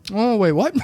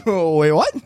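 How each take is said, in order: First: Louder, startled mock outburst; loud, sudden mock realisation; jolted mock surprise, louder; mock double take. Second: Even louder startled outburst; loud, shocked repeat of the double take; louder mock disbelief; bigger mock double take. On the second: Repeated double take after laugh.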